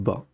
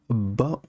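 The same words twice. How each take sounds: First: The b sound is short, single. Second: The b sound is held long, doubled. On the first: "au lieu de" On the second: "c'est comme si on avait deux B au lieu d'un seul B"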